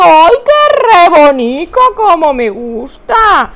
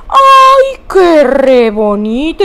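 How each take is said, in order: First: Loud, slow "qué re bonito"; drawn-out loving gush; gushing delight. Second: Squealing "ay, qué re bonito"; delighted cry. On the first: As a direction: melt over it out loud. Repeating her delight, gushing. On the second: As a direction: gush with delight at the sweet emoji. Delighted at a hug emoji. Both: Real, not acted.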